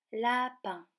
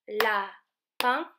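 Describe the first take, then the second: First: Said in the usual way. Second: "Lapin" loud, in two separated beats, rising at the end; syllable by syllable. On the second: Shown as a demonstration. Teacher shows children the last syllable, "Lapin" split in two. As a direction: punch out la, then pin in "Lapin". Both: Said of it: "la dernière syllabe".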